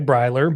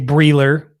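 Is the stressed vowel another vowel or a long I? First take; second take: long I; another vowel. First: The stressed vowel is a long I. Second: The stressed vowel is not a long I. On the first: The speaker calls it right. "It's a long I" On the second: The speaker calls it wrong. "a lot of people get mine wrong. They say"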